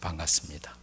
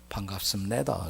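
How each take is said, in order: First: Standard southern delivery, no final-syllable accent. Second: North Korean style, accent on the final syllable.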